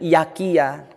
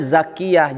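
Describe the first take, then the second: First: The name begins with a y sound. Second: The name begins with a z sound. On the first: "jadi Yakiyah" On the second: "Namanya Zakiyah"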